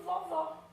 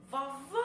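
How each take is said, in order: First: Said in the usual way. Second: "Vovó" called out with the last syllable held long; stress on final VÓ. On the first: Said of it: "Então, chama essa palavra". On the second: Shown as a demonstration. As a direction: stretch the final "vó" of "Vovó" like calling someone. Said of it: "passam mais tempo pronunciando". ("Vovó" chamado, com o último "vó" bem prolongado)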